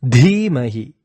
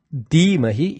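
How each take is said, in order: First: "Dhimahi" with a forceful puff of breath on Dh; emphatic "Dhimahi", Dh heavily aspirated; strong aspirated dh. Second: "Dhimahi" with plain d, no puff of breath; wrong-way demo of "Dhimahi" with unaspirated d; unforced d. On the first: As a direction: push air through the Dh of "Dhimahi". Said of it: "it is a strong Dhi". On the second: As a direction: drop the aspiration, saying "Dhimahi" as "Dimahi". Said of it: "It is not". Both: Shown as a demonstration.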